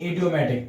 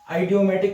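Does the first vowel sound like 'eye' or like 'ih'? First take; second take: ih; eye. First: The word begins with a short 'ih' vowel. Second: The word begins with an 'eye' vowel. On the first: The speaker calls it right. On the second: The speaker calls it wrong. "आइडियोमेटिक नहीं"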